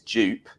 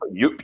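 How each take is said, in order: First: The word begins with a 'j' sound. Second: The word begins with a 'y' sound. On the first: This is how English speakers usually say it. "Dupe is how we we uh, Western European people, English speakers, tend to pronounce it" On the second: This is how it is supposedly meant to be said. "Apparently, we're supposed to say it differently"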